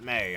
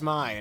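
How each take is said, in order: First: The vowel rhymes with 'day'. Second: The vowel rhymes with 'high'. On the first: The speaker calls it wrong. "not May" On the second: The speaker calls it right. "I think pronunciation as my"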